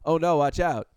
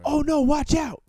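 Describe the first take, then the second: First: It is said calmly, with no breathlessness. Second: It is said breathlessly, as if running.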